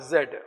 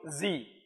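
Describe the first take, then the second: First: The letter is said as zed. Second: The letter is said as zee.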